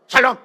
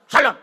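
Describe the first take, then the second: First: It is said in a stiff, curt way. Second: The same.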